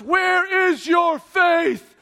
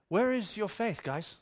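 First: Loud, drawn-out, high proclamation; overblown, stately shout; booming mock rebuke. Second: Gentle chiding that drops away; mild, unbothered question. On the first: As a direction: thunder it slowly like a grand rebuke. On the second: Acted. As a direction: ask it casually, no rebuke at all. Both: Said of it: "That's not how this plays out".

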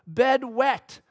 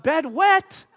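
First: Lightly voiced little kid, a bit higher; hint of a toddler's voice; toddler son. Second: Louder, higher disbelieving question; incredulous rising question. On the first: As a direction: report it like a small child. Small son reports wet bed. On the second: Retold or imitated. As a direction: echo it back in disbelief. Dad repeats it in disbelief.

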